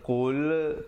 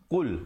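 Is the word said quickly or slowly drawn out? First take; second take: slowly; quickly. First: The word is said slowly and drawn out. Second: The word is said quickly and short. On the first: The speaker calls it wrong. "jangan lambat, jangan qul, tak betul" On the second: The speaker calls it right. "begitu saja"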